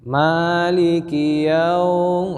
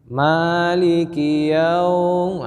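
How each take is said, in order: First: The vowel in 'yaum' is held too long. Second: The same.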